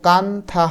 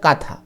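First: A full n consonant is said before th. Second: The vowel is nasalized with no n consonant. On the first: The speaker calls it wrong. "এটার উচ্চারণ কিন্তু কান্থা হবে না" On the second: The speaker calls it right. "উচ্চারণটা হবে কাঁথা"

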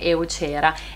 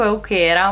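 First: The middle consonant is a soft ch sound. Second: The middle consonant is a hard k sound. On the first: The speaker calls it wrong. "negli scorsi video dicevo eucera e vi chiedo di perdonarmi" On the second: The speaker calls it right. "Dico euchera"

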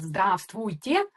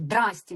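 First: All syllables of the greeting are fully pronounced. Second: The greeting is clipped to two short syllables. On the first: "ми звикли казати «здравствуйте»" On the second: "а нам кажуть «здрасте»"

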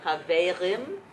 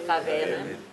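First: The R is made at the back of the throat. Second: The same.

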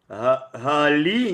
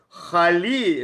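First: It begins with a soft voiced h sound. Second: It begins with a harsh kh sound. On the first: It means praise. The speaker calls it right. "Гали, ни в коем случае не хэ" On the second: It means may it be cursed. The speaker calls it wrong. "Хали, это да будет проклят"

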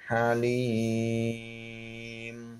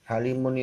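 First: The word ends on a bare m sound. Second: The word ends with the syllable mun. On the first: The reading stops at this word. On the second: The reading continues without stopping.

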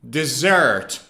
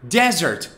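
First: The stress falls on the second syllable. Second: The stress falls on the first syllable. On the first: It is something sweet eaten after a meal. "the stress is on the second syllable" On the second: It is a dry area of land with little rain. "The stress is on the first syllable"

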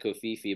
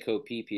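First: Phi Phi begins with an f sound. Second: Phi Phi begins with a p sound. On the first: This is the reading suggested by the spelling. The speaker calls it wrong. "instead of Koh Phi Phi" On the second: This is how local people say the name. The speaker calls it right. "they actually say Koh Phi Phi"

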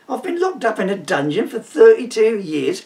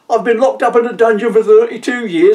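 First: It is said in his normal speaking voice. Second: It is said in a put-on character voice.

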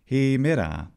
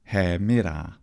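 First: Only the first long e vowel is closed. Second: Neither e vowel is pronounced closed. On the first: This is the majority conservative subdialect's pronunciation. "They had a closed long vowel" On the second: This is the most conservative speakers' pronunciation. "In the conservative pronunciation of classical Attic"

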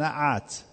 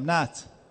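First: A vowel follows the middle consonant. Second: No vowel follows the middle consonant. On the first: It is the verb form. The speaker calls it wrong. "نه نمیگم نعت" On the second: It is the noun form. The speaker calls it right. "این فتحه نداره، ساکنه"

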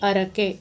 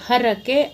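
First: The word begins directly with a vowel. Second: The word begins with an h sound. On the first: The speaker calls it wrong. "ಕೆಲವರು ಆಕಾರ ಹೇಳಲ್ಲ" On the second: The speaker calls it right. "ಹರಕೆ, ಇದು ಸರಿಯಾದ option"

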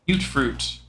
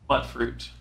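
First: The first syllable rhymes with fruit. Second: The first syllable does not rhyme with fruit. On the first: "mute fruit, because they rhyme" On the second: "mutt fruit, which doesn't rhyme"

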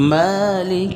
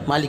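First: The first vowel is drawn out long. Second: The first vowel is short. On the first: The speaker calls it right. "মার মধ্যে টান আছে একালিফ" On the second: The speaker calls it wrong. "মালিক ইয়াউমিদ্দিন অনেকে বলে, এটা ভুল।"

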